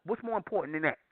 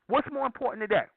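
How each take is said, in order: First: Said in the usual way. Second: Much higher, pressing rhetorical question; raised indignant challenge to the audience; emphatic repeat. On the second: Real, not acted. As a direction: push the repeat up high to drive it home.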